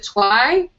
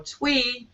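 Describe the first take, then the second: First: The vowel sounds like 'eye'. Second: The vowel sounds like 'ee'. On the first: "Twi with a Y" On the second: "Twee with an E"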